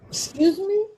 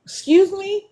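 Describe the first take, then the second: First: High rising excuse me; stunned excuse me; incredulous. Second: Shocked excuse me; incredulous. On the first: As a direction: sound stunned, pitch way up. Repeats incredulous question. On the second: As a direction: ask it in disbelief. Incredulous at paying for Dash Pass. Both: Real, not acted.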